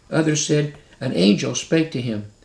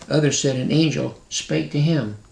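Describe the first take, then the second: The two takes are said the same way.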